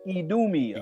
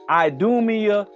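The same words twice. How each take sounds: First: The first vowel sounds like 'ee'. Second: The first vowel sounds like 'eye'. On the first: This is how it is said in Europe. "that I is used with the E sound, the strong E sound" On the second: This is how it is said here. "we we use the strong I"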